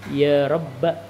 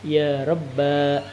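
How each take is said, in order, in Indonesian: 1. Vokal akhirnya pendek. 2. Vokal akhirnya dipanjangkan. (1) "tanpa alif" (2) "dengan alif"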